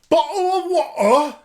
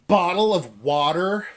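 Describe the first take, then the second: First: It is said in a mock British accent. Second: It is said in a mock American accent.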